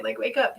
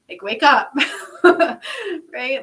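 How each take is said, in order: First: Said in the usual way. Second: Louder, laughing wake-up call. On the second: Real, not acted. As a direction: laugh it out while urging them. Urging listeners, laughing loudly.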